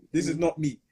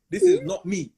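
First: Said in the usual way. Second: High, loud denial; loud protest. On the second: Real, not acted. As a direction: protest it loudly. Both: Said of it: "repeated denial".

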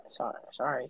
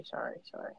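First: Quick quiet sorry; hasty apology. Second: Whispered sorry, fading out; hasty whispered apology. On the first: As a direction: apologize softly and fast. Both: Real, not acted. Apologizing after being hushed.

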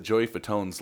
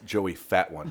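First: Said in the usual way. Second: "Fat One" said as two separate English words; misread surname. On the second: Shown as a demonstration. Friend jokes on [name]'s spelling, misread as "Fat One". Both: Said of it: "it says [name]".

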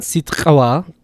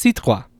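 First: Sitqawa with the q popped hard and separated from the t; overly strong ejective. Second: Sitqua with a light q blended into the cluster; softened ejective. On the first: Teacher showing what it's not, sitqawa with exaggerated ejective. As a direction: overdo the uvular pop in sitqawa. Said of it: "it's not super strong". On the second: Teacher giving the real word, sitqua with softened ejective. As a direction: ease the uvular pop inside sitqua. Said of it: "it softens in a way". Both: Shown as a demonstration.

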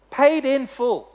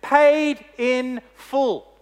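First: Said in the usual way. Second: Paid in full, drawn out very slowly and raised; slow, weighty pronouncement of freedom; judge's solemn verdict. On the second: Acted. Judge tells the freed criminal, slow and solemn. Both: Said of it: "And he says to him".

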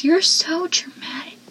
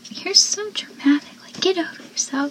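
First: Dry whispered jab; unimpressed mutter; deadpan whisper. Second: Higher, sneering then whispered; snarky retort; mocking. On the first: Retold or imitated. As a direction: say it flat under the breath. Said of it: "Joey goes". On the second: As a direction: brush him off. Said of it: "where they go".

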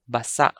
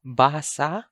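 First: Basa with short BA, stressed SA; stress on second syllable. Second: Basa with long BAA, rising end; stress on first syllable. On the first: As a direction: clip basa, weight on the last syllable. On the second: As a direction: stretch the first vowel of Basa. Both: Shown as a demonstration. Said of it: "I'm going to read".

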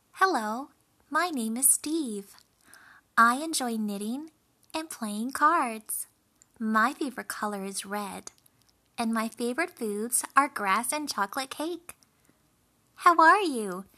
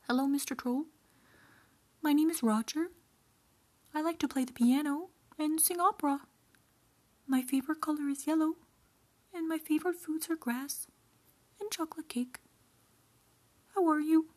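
First: Louder, higher-pitched chatty little goat; young goat. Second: High-pitched, quick-talking goat; middle goat. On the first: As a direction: introduce yourself brightly as a friendly little goat. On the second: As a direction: chatter high and fast as a polite goat. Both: A narrator's reading. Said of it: "and replied".

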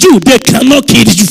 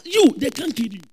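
First: Thunderous preacher's shout; very loud, hammered-out promise; full-force declaration. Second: Said in the usual way. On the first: Real, not acted. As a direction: proclaim it at the top of your voice to draw an amen. Repeats louder after weak amen.

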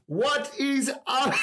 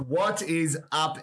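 First: Drawn-out laughing "what is up?"; excited laughing shout. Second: Said in the usual way. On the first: Real, not acted. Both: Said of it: "That's not how we do the intro".

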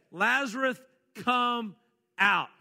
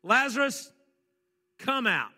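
First: A commanding shout toward the tomb; loud call. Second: Called out loud and high, like a command to a tomb. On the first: Retells Jesus calling Lazarus. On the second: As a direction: call Lazarus out of the grave in full voice. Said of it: "He called in a voice so loud that everyone around could hear". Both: Acted.

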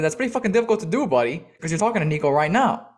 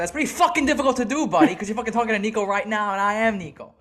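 First: Incredulous retort. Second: High, fast, heated retelling of an outburst; fuming retort. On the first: First retort to the confused driver. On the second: Customer tearing into the confused delivery driver, fuming. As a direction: rattle it off in rising outrage, pitched well up. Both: Retold or imitated.

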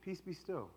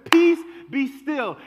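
First: Much softer, close and personal; gentle, to us. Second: Loud and slow, a command; commanding to the storm. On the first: Jesus looking us in the eye, soft gentle words. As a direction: say it softly, eye to eye. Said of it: "look at us directly in the eye". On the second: Jesus speaking to the storm around us, loud slow command. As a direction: bark it at the raging storm. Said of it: "he's talking to the storm". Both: Acted.

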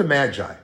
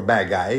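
First: Said in the usual way. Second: MAGI with a hard g as in "guy"; alternative pronunciation. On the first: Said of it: "I call them the Magi". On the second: Shown as a demonstration. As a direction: say Magi the other way, g as in "go". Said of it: "depending on how you pronounce it".

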